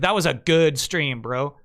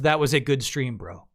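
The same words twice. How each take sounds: First: It is said with strong, enthusiastic emphasis. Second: It is said with mild, plain emphasis. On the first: The stream was very good. "Chocolate is like" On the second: The stream was fine, just decent. "Vanilla is"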